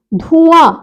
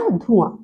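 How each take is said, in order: First: धुआं with dhū drawn out; wrong long vowel. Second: धुआं low and soft, quick dhu; correct short vowel. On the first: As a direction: stretch dhūū in धुआं. (धुआं में ऊ खींचकर) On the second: (धुआं में छोटा उ) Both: Shown as a demonstration. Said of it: "धुआं का क्या हो गया?".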